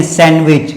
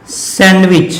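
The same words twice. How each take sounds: First: सैंडविच said as "san-wich"; सैंडविच with n running into w; silent D. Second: सैंडविच with the D sounded; wrong pronunciation. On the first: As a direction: drop the d in सैंडविच. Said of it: "डी की उच्चारण नहीं होगा". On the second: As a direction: say सैंडविच as "sand-wich". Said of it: "हम गलत बोल देते हैं". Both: Shown as a demonstration.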